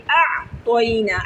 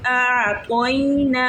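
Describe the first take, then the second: First: आ तो इना with a jolt on the ain, chopped short; jerked wrong way. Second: आ तो इना with the आ and ई stretched one alif long; lengthened vowels. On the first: Teacher shows the wrong jerky reading to avoid. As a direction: snap the आ abruptly, don't glide. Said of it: "इसको ऐसे नहीं पढ़ेंगे". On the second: Teacher shows the girls the long vowels in आ तो इना. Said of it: "खींच के पढ़ेंगे एक अलिफ के बराबर". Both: Shown as a demonstration.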